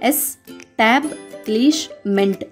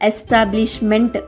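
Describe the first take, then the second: First: It is said in separate parts with pauses. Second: It is said smoothly as one unit.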